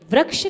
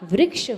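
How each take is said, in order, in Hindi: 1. र का उच्चारण बिना 'i' स्वर के होता है। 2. र का उच्चारण 'i' स्वर के साथ होता है। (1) "नहीं होता" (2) "होता है"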